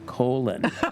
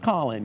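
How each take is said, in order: First: The name is said like the word colon. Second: The name is said with its usual pronunciation. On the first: This is a deliberate joking mispronunciation of the name. "we would pronounce that colon" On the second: This is how the man's name is normally said. "he spells Colin"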